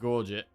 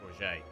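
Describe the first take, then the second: First: It is said like the words gorge it. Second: It is said the French way, like gourmet. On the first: "I guess you have gorge. Gorge is a word, right? Gorge it" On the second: "it's like a French word and it's like gourget. Like gourmet"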